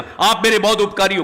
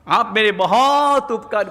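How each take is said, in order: First: It is said in an angry tone. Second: It is said in a cheerful, pleased tone.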